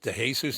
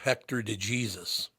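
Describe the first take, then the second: First: Jesus is pronounced the Spanish way. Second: Jesus is pronounced the English way. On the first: This is how the name is properly pronounced. "isn't your name pronounced" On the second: This is how people said it in America. "They pronounced it, though, in America"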